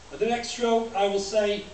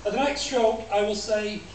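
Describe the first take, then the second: No difference in how they are said.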